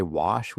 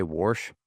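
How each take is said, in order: First: Said in the usual way. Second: "warsh" with an R thrown in before the sh; Midwestern "warsh". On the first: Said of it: "We don't even say wash". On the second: Shown as a demonstration. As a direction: say "warsh" the Saint Louis way, r-coloured vowel. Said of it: "we say warsh".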